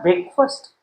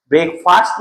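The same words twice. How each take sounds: First: BREAKFAST with a reduced "fust" ending; BREAKFAST with a short, neutral second vowel; rejected pronunciation. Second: BREAKFAST with a full open "a" in "fast"; corrected pronunciation. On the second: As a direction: say BREAKFAST as "brek-fast", second vowel clear. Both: Shown as a demonstration. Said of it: "not breakfast".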